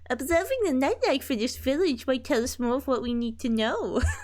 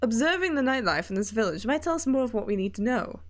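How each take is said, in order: First: It is said in a cutesy uwu voice. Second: It is said in a normal voice.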